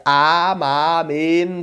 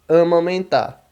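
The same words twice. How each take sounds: First: "amamentar" slowly, pure open A's, no nasal vowels, sounded final R; slow, syllable-by-syllable "amamentar" without nasalising; Esperanto pronunciation. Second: "Amamentar" with nasal "ã" and "ẽ" and a dropped final R; everyday Brazilian "Amamentar"; Portuguese nasalised vowels. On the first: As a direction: stretch each syllable of "amamentar" with clean oral vowels. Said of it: "em esperanto essa palavra". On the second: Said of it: "amamentar em português". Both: Shown as a demonstration.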